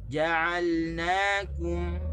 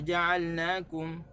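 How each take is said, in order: First: The pronoun syllables na and kum are stressed. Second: The pronoun syllables na and kum are not stressed. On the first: The separate words are clear. The speaker calls it right. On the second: It is unclear how many words there are. The speaker calls it wrong.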